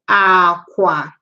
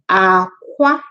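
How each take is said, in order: First: It has the tone pattern meaning bed. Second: It has the tone pattern meaning egg. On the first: It means bed. "aqua, bed" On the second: It means egg. "pay attention to the way I say it because that's what will differentiate them. Aqua is egg"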